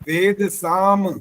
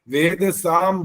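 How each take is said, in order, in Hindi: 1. अंतिम म (m) खुले होंठों के साथ पूरा छोड़ा जाता है। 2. अंतिम म (m) बंद होंठों के साथ छोटा करके काटा जाता है। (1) "माँ पूरा बोलना होता है। माँ पूरा बोलने में होंठ खुले रहते हैं" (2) "ये गलत हो गया, ... साम बोलने पर माँ जो है वो हलंत बोलते हैं"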